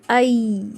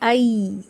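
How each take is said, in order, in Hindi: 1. यह स्वर 'a' से 'i' की ओर सरकता है। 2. यह स्वर 'a' से 'i' की ओर सरकता है।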